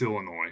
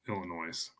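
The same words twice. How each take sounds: First: The final S is silent. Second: The final S is pronounced. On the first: The speaker calls it right. "it's it's Illinois" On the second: The speaker calls it wrong. "It's not Illinois"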